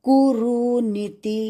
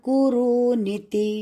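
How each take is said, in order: No difference in how they are said.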